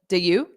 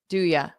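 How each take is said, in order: First: The second word is a full 'you'. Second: The second word is reduced to 'ya'. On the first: "this to me sounds like do you" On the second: "but I might do it more like do ya"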